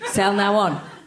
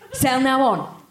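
First: The voice is calm and low in energy. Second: The voice is lively and full of energy. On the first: "Less excited" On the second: "can you say it like you're excited?"

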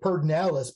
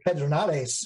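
First: The name is said with an anglicized pronunciation. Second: The name is said with a Spanish pronunciation. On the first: This is how locals usually say the name. The speaker calls it wrong. "we say Pedernales" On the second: This is the name's original form. The speaker calls it right. "but it's really Pedernales"

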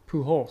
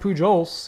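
First: The middle consonant is an H sound. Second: The middle consonant is a J sound. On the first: The speaker calls it right. "it's Pujols" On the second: The speaker calls it wrong. "It's not Pujols"

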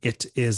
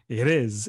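First: The two words are said separately and distinctly. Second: The two words run together like one word. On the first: "you're not saying it is unless you're really mad at somebody" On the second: "You say it is, I-D-I-S. That's how it sounds"

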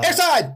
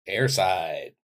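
First: The word is loudly exclaimed. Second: The word is said plainly and quietly.

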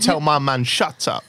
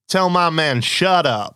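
First: It is said in an English accent. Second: It is said in an American accent. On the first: The speaker calls it right. "Oh yeah, you're going to go" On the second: The speaker calls it wrong. "you're not going to go"

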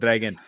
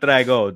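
First: The name ends with a final n sound. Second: The name ends without a final n sound. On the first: The speaker calls it right. "Some people drop the N" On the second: The speaker calls it wrong. "Not Drago"

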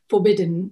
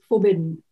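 First: The word is said in a formal, careful accent. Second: The word is said in a relaxed, casual accent. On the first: "the first movie, it was more formal, the accent" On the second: "So it was very like relaxed in the second one"

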